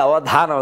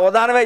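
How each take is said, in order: First: The middle consonant is an aspirated dh. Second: The middle consonant is a plain unaspirated d. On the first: It names the memory-based poetic performance. The speaker calls it right. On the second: It sounds like a kind of donation. The speaker calls it wrong.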